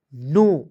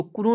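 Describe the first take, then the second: First: नो said as a single short NO sound with no K; silent K. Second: कुनो with the K sounded, as the mistake to avoid; wrong pronunciation. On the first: Teacher gives students the right reading, silent K. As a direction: drop the K and say नो. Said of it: "के को silent कीजिएगा". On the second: Teacher shows students the wrong reading, K sounded. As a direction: say कुनो with a clear K before the N. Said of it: "तो कुनो नहीं पढ़िएगा". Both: Shown as a demonstration.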